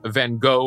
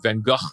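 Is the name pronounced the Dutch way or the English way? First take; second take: English; Dutch. First: The name is said with an English pronunciation. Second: The name is said with a Dutch pronunciation.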